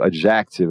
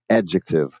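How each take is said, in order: First: The J sound and stress are shifted. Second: The J sound and stress are English-like. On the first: The speaker calls it wrong. "a pessoa muda o som do J, muda a tônica" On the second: The speaker calls it right. "Puxa para o E e faz um J e faz o C ali no K"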